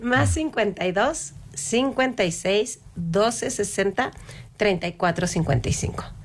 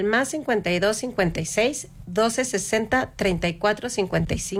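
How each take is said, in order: First: It is said slowly. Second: It is said at a normal speed.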